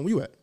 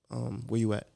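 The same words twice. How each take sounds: First: The voice is deep, bright and upbeat. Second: The voice is flat and serious. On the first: Everything is normal and fine. "usually he'll call me with like an uplifting voice" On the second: Something is wrong. "Just like that"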